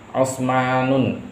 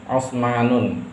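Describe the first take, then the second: Both takes have the same delivery.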